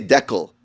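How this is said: It is said the Canadian way, like deckle.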